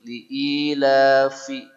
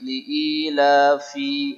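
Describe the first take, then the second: First: The final vowel is kept short. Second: The final vowel is drawn out long. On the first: The speaker calls it right. "fi sini pendek" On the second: The speaker calls it wrong. "ada banyak yang memanjangkan fi"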